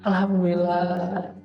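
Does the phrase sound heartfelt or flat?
heartfelt. It is said with deep, heartfelt feeling. The speaker truly feels grateful. The speaker calls it right. "dengan hati"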